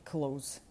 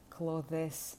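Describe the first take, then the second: First: The th is dropped, sounding like close. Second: An extra vowel is inserted between th and s. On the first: The speaker calls it right. "говорити «months» і «close»" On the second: The speaker calls it wrong. "взагалі не в ту сторону"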